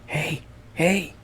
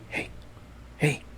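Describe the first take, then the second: First: It is said in a full, Oogie Boogie-like voice. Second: It is whispered.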